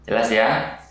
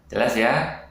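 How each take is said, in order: No difference in how they are said.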